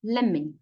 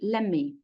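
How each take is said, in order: First: The words run together and the t drops. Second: The words run together and the t drops.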